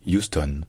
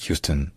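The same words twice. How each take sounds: First: "Houston" as you-stone, no h, clear o; Frenchified Houston. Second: "Houston" as HYOO-stun with a schwa; English pronunciation. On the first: Teacher offering an adapted version, French pronunciation. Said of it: "pour franciser ça". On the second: Teacher naming the original behind the French version, English pronunciation. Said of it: "de l'anglais Houston". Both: Shown as a demonstration.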